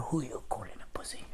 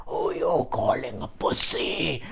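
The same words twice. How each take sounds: First: Very soft, whispered retort; hushed, affronted acted whisper; muttered retort. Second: Slow, quiet seething retort; softly acted, drawn-out fury. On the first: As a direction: whisper an indignant comeback under the breath. Muttered retort after being insulted. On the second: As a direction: re-enact suppressed rage, drawing the words out. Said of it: "I was seething with hate".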